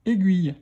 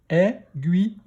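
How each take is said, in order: First: Said in the usual way. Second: "Aiguille" split into è, gui, ye; "Aiguille" in three separate beats; syllable by syllable. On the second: Shown as a demonstration. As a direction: sound out "Aiguille" with a final ye. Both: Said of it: "Première syllabe".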